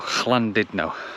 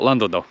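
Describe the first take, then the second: First: It is said with Welsh sounds. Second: It is said with English sounds. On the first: "I think the correct pronunciation" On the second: "is fine, I think"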